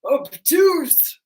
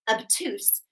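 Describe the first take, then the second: First: Loud, lightly voiced big macho guy; lower macho voice. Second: Said in the usual way. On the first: Shown as a demonstration. Macho angle announcing its name as a memory trick, mock tough. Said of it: "they've got the lower voice". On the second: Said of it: "I know it's so silly".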